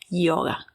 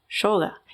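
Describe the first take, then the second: First: The word is said the international, non-Argentine way. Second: The word is said the usual Argentine way. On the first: This follows the word's original root. The speaker calls it right. "correctamente se pronuncia así" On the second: This is the common local habit. The speaker calls it wrong. "no yoga"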